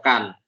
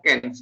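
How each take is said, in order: First: The vowel is said like an 'a'. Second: The vowel is said like an 'e'. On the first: The name is read in the German way. The speaker calls it right. "A adalah A" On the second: The name is read in an English way. The speaker calls it wrong. "bukan bahasa Inggris yang A itu dibacanya E ya"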